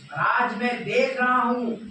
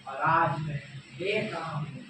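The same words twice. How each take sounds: First: High, loud declamation; emphatic repeat. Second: Said in the usual way. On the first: Acted. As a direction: proclaim it forcefully, pitch raised. Repeated line, escalated for effect. (ऊँचे स्वर में ज़ोरदार उद्घोष)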